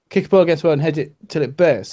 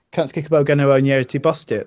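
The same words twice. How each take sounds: First: Said in the usual way. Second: Broad local British dialect, run together; thick regional dialect vowels. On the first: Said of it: "that's not a dialect". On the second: Shown as a demonstration. Showing friends what a dialect is, broad regional dialect. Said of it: "That is a dialect".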